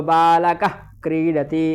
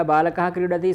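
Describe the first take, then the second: First: बालकः with the visarga turned into a throaty kh before क्रीडति; बालकः क्रीडति as balakakh kridati, breathy back-of-tongue friction; Sanskrit jihvamuliya. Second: Said in the usual way. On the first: Shown as a demonstration. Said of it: "ऐसा उच्चारण करते हैं". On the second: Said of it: "यह बालकः क्रीडति सामान्य शब्द हो गया".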